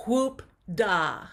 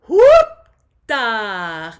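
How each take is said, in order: First: Said in the usual way. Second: Loud, high head-voice whoop. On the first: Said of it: "a lower voice". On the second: Shown as a demonstration. Voice teacher showing the class a head-voice whoop. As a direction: fling it up into head voice. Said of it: "do a head voice or a higher voice".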